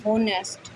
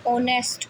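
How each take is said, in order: First: होनेस्ट with the h sounded at the start; wrong pronunciation with h. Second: Said in the usual way. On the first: Shown as a demonstration. Teacher showing pupils the wrong reading of होनेस्ट. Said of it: "ना कि होनेस्ट". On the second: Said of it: "ऑनेस्ट पढ़ेंगे".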